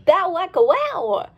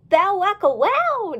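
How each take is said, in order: First: Catchphrase cheer. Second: Slow, high gleeful cheer. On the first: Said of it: "faster than you could say". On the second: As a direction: cheer the catchphrase out. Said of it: "Dolly cheered". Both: Acted.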